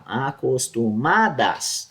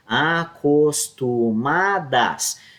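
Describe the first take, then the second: First: "Acostumadas" slowed, "ma" leaned on; stress on MA. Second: "Acostumadas" said very slowly, the "ma" syllable pushed forward; stress on MA. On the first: Teacher repeating the word by sound, slowly, stressing ma. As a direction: draw out "Acostumadas" and hit "ma". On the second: Teacher showing by ear which syllable is stressed, very slowly. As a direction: stretch "Acostumadas" and let "ma" ring out strongest. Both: Shown as a demonstration. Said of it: "o ma é mais acentuado".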